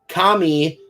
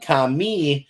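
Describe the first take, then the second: First: The emphasis is on the first syllable. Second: The emphasis is on the second syllable. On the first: The word means God. "Kami means God" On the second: The word means hair. "put the emphasis on the me, the word means hair"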